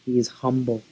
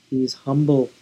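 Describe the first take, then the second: No difference in how they are said.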